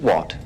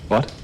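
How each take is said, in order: First: It sounds hard, cold and threatening. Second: It sounds puzzled and neutral. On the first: The speaker is angered and warns the other to back off. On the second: The speaker did not catch or understand the remark.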